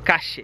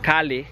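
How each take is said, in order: First: The middle consonant sounds like SH. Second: The middle consonant sounds like an L.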